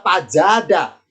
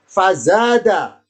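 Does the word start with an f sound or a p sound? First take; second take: p sound; f sound. First: The word starts with a p sound. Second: The word starts with an f sound.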